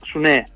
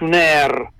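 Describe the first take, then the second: First: The word ends in a short open 'e' sound. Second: The word ends in a longer 'air' sound. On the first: This is the local form used in Pesaro. "noi a Pesaro diciamo Sunè" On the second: This is the Romagnol dialect form. "Invece i romagnoli tengono questo Sunair"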